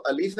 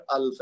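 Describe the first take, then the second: First: الف with a short i after the laam; zer under laam. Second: الف with no vowel after the laam; silent laam (sakin). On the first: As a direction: say الف as a-lif, two syllables. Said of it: "لام کے نیچے اگر زیر ہے". (الف میں لام کے نیچے زیر) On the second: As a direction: say الف as alf, one syllable. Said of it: "اگر لام ساکن ہے". (الف میں لام ساکن) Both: Shown as a demonstration.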